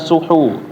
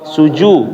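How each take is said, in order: First: The middle consonant is a breathy 'h' sound. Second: The middle consonant is a 'j' sound. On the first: The speaker calls it wrong. "bukan suhu" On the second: The speaker calls it right. "Perhatikan ada titiknya"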